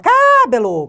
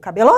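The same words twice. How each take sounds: First: The stress falls away from the middle syllable. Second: The stress falls on the middle syllable. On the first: The speaker calls it wrong. "você não fala cabelo" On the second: The speaker calls it right. "ela é paroxítona"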